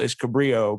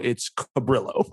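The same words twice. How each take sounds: First: The name is said in a white/Hispanic way. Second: The name is said with heavy stress on 'brill'.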